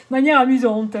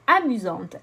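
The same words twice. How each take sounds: First: Wry, amused repeat of the phrase; amused echo. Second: Said in the usual way. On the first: Real, not acted. Oracle reader joking about the card's promise, amused echo. Echoes card wryly after laughing.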